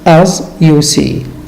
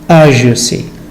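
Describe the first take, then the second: First: It is said slowly with each word separate. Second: It is said fast with the sounds run together. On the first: "I sometimes say" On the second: "when I speak rapidly"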